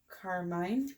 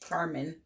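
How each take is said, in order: First: The last syllable sounds like 'mine'. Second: The last syllable sounds like 'men'. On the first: The speaker calls it wrong. "I would call Carmine" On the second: The speaker calls it right. "the proper way to pronounce it is Carmen"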